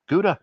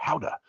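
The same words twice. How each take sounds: First: "Gouda" said as GOO-da; hard G, long "oo" in "Gouda"; American pronunciation. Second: "Gouda" said as HOW-da; "Gouda" with H and "ow", no hard G; Dutch pronunciation. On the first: Reading the cheese description, American pronunciation. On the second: Offering the other name for viewers, Dutch pronunciation. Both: Shown as a demonstration. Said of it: "similar to Gouda or Gouda".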